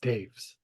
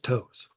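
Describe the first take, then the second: First: The name is said with a different vowel, 'Taves'. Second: The name is said as one syllable, 'toes'. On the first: This is the version hockey fans would know. "if you know anybody that likes hockey, it's Taves" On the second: This is the simple version given to most people. "The way I tell everybody is toes"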